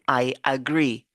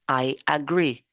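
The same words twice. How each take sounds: The two takes are said the same way.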